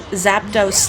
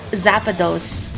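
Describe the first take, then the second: First: The name is said without an extra middle syllable. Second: The name is said with an extra middle syllable.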